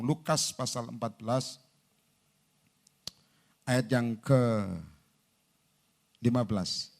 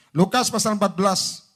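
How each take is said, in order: First: Slow announcement. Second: Raised, projected reference; firm announcement. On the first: Preacher looking up the verse, slow and subdued. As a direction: stretch it out while finding the verse. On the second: Preacher announcing the verse to congregation, loud and firm. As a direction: call it out for all to hear. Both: Real, not acted.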